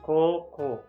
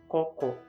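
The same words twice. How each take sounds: First: The 'o' vowels are held long. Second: The 'o' vowels are kept short. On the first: The word means high school. The speaker calls it right. "which means high school" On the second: The word means here. The speaker calls it wrong. "which means here"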